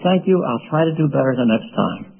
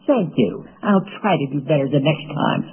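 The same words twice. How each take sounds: First: It is said in a sincere, kind tone. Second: It is said in a nasty, sarcastic tone. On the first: The speaker genuinely accepts the criticism. The speaker calls it right. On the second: The speaker resents the criticism. The speaker calls it wrong.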